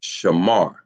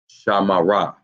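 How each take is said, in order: First: The word ends on the R sound. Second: The word ends with an extra vowel after R. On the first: The speaker calls it right. "we know it's actually pronounced Shamar" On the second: The speaker calls it wrong. "without the connector, that word ... would be pronounced Shamara"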